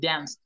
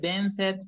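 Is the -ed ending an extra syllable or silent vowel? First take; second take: silent vowel; extra syllable. First: The ending adds no syllable, vowel is silent. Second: The ending is said as an extra syllable. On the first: The speaker calls it right. "Las E son mudas" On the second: The speaker calls it wrong. "No se dice dance it"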